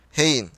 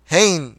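First: Said in the usual way. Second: Mild startled, angry exclamation; a restrained version of the Baron's bark; narrated yell. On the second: A narrator's reading. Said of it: "diye bağırdı". (hafif bir öfkeli bağırış)

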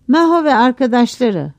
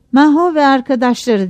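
First: Mildly raised calling voice; narrated shout. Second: Higher, louder calling voice; announced roll call. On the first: Assistant calling the crew a second time, mild narrated shout. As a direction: call the names out, understated shout. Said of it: "Bir daha bağırdı". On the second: Cashier's assistant calling workers to be paid, announced roll call. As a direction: read the names out as a call. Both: A narrator's reading.

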